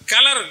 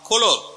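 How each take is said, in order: First: The word is said with 'a' vowels. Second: The word is said with 'o' vowels. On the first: This is how it is said in Africa. "ஆப்பிரிக்காவில் போய் சொன்ன எப்படி சொல்லுவாங்க" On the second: This is how it is said in America. "அமெரிக்காவில் போனால்"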